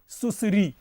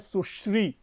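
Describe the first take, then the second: First: The ending is split into 'sa-ree' syllables. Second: The ending is a single 'shree' cluster. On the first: The speaker calls it wrong. "इसका उच्चारण सामान्यतया लोग इस प्रकार करते हैं" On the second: The speaker calls it right. "एक शब्द है सुश्री"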